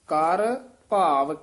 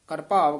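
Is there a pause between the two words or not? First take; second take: pause; no pause. First: There is a short pause between the words. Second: The words are run together without a pause. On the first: The speaker calls it right. "ਇੱਥੇ ਵਿਸਰਾਮ ਹੈ" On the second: The speaker calls it wrong. "ਕਰ ਭਾਵ ਇਕੱਠਾ ਨਹੀਂ ਕਹਿ ਦੇਣਾ"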